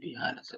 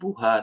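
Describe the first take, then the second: First: The vowel before the final syllable is i. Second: The vowel before the final syllable is u. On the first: The speaker calls it right. "tapi biha" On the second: The speaker calls it wrong. "Bukan buha"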